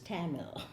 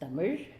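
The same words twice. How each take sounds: First: The word has an anglicized English pronunciation. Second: The word has its native Tamil pronunciation. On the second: "Properly pronounced"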